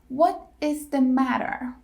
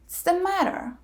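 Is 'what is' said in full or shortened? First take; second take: full; shortened. First: 'What is' is said in full. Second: 'What is' is shortened to a ts sound.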